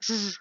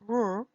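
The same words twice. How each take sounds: First: The R sound has audible friction. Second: The R sound is smooth, without friction. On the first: The speaker calls it right. "but R. See the difference?" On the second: The speaker calls it wrong. "It's not R"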